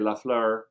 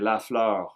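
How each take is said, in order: First: The name is said with a partly French accent. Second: The name is said with a full French accent.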